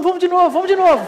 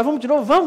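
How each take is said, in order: First: Bem agudo e mais alto, rindo de alegria; gritinho eufórico rindo. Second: Animado, mais agudo. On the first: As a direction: pede de novo rindo, como criança empolgada. (criança eufórica rindo após o pouso) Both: Retold or imitated. Euforia após pousar.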